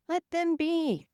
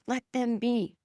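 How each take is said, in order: First: High gentle "Let them be"; soft high repeat. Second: Said in the usual way. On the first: Shown as a demonstration.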